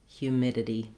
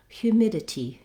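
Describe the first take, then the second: First: The T is a light flap. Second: The T is clear with released air. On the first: "that was the American English pronunciation" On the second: "British English, they clearly say that T sound with a little release of air"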